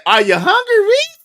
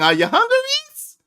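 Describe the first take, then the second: First: High sing-song "Are you hungry, Reese?"; lilting high motherly call; mimicking mom's sing-song. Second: "Are you hungry" plain, "Reese?" high; plain ask, then high "Reese?"; plain question, high "Reese". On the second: Retold or imitated. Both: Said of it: "That's their thing".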